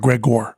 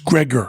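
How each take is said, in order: First: The last syllable has a full 'gor' vowel. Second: The last syllable has a weak 'ger' vowel. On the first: This is the name of the character in Metamorphosis. The speaker calls it wrong. "not Gregor" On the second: This is how the doctor's name is said. The speaker calls it right. "But it's Gregor"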